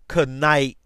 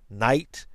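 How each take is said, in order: First: The word starts with a sounded k before n. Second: The word starts with an n sound, silent K. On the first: This is claimed as the old pronunciation. "They were pronounced with the K" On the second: This is how the word is said today. "were not pronounced as night"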